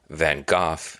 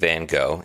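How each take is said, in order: First: The name is said the British way. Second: The name is said the American way. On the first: "is more of a U K thing" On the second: "is how many people in the U S say it"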